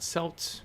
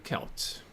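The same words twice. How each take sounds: First: The word begins with a soft S sound. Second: The word begins with a hard K sound. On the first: The speaker calls it wrong. "not Celts" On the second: The speaker calls it right. "it's pronounced the way I'm pronouncing"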